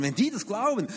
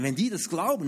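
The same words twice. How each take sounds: First: "die" raised higher in alarm; worried stress on "die". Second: Said in the usual way. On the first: Retold or imitated. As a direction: repeat it with rising panic on "die". Worried repeat.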